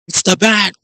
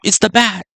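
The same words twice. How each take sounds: First: It is said in a stereotypical New York Italian accent. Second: It is said in the speaker's plain voice.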